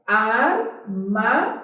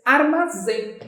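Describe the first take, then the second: First: Armazém said slowly, syllable by syllable; slow syllable-split Armazém. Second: Said in the usual way. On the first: Shown as a demonstration. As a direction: break Armazém apart slowly, ar-ma-zém.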